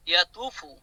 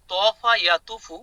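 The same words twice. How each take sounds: First: Said in the usual way. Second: তফা ইয়াতুফু spelled out slowly, syllable by syllable; drawn out so students catch each sound; slow careful pronunciation. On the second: Shown as a demonstration. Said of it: "তফা ইয়াতুফু মানে ঘোরা". (ধীরে ধীরে স্পষ্ট উচ্চারণ)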